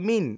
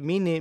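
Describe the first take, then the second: First: The word ends on a held n sound. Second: An extra vowel is added after the n. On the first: The speaker calls it right. "মিন চেপে ধরতে হবে" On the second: The speaker calls it wrong. "মিনে বলবেন না কিন্তু"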